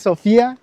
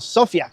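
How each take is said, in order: First: The stress falls on the second syllable. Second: The stress falls on the first syllable. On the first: It is the woman's name. The speaker calls it wrong. "no es Sofía" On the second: It is the city's name, meaning wisdom. The speaker calls it right. "sino Sofía, como se le llama a esta ciudad"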